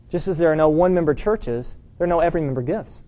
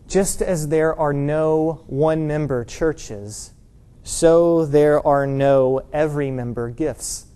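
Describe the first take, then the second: First: Said in the usual way. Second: Very slow, measured delivery; slow deliberate quote. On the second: Retold or imitated. Preacher quoting an author to the congregation, slow and deliberate. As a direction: spell out the saying slowly and evenly.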